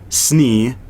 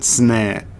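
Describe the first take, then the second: First: The vowel is a long ee sound. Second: The vowel is a short eh sound. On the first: This is the intended name. The speaker calls it right. "which is not how you say Snee" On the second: This is how the spelling reads. The speaker calls it wrong. "that's like sin, sneh"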